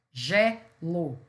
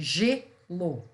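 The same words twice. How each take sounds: First: "gelo" in split syllables, open é first. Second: "Gelo" in split syllables, closed ê first. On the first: Teacher showing students the different intonation, open E in "gelo". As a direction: sound out "gelo" as GÉ-lo, vowel as in "bet". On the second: Teacher showing students the different intonation, closed E in "Gelo". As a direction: sound out "Gelo" as GÊ-lo, vowel as in "they". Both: Shown as a demonstration. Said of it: "mas eu entono diferente".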